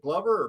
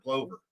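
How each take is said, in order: First: "Glover" said to rhyme with lover; short-vowel pronunciation. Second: "Glover" said to rhyme with clover; long-o pronunciation. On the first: Asking how a name is said, "Glover" rhyming with lover. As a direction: say "Glover" with an "uh" in the first syllable. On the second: Asking how a name is said, "Glover" rhyming with clover. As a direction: say "Glover" with a long "oh" in the first syllable. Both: Shown as a demonstration. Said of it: "I just wanna know, is it".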